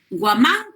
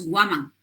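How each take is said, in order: First: The stress is on the last syllable. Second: The stress is on the first syllable. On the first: It is the Spanish surname. "Por ello lleva el acento agudo" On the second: It is the Quechua name. "Es un nombre quechua. En el quechua solo hay acento grave"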